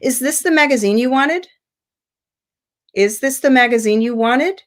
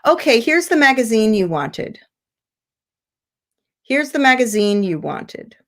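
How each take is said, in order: First: Yes-no question climbing at the end on "wanted"; rising question intonation. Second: Statement stepping down through "magazine you wanted"; falling intonation. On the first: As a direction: lift the pitch right up on "wanted". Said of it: "I would actually make a rising intonation". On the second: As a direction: let the pitch go down, then down again to "wanted". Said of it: "You see how it goes down". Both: Shown as a demonstration.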